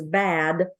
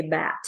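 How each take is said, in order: First: Said in the usual way. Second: Bad said as bat, final d turned to t; devoiced final consonant. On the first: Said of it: "if the word was bad". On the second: Shown as a demonstration. Coach imitating a learner who devoices bad to bat. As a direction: end bad with a t so it sounds like bat. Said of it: "they might say bat".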